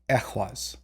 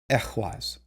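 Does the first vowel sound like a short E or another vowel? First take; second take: short E; short E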